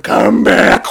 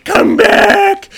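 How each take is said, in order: First: Loud mock-wailing shout; hammed-up sobbing plea; crying. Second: High, loud mock yell; calling after him. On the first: Dragon chasing the sailor in tears, crying. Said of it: "she starts to cry". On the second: Dragon trying to get the sailor, loud calling. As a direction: shout to stop someone fleeing. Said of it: "she's trying to get him".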